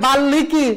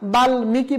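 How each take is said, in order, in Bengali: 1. m ধ্বনিটি শব্দ থেকে বাদ যায়। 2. এই শব্দে m ধ্বনিটি উচ্চারিত হয়। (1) "কেউ যদি বলে বাল্মীকি, না না না হবে না" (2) "বলতে হবে"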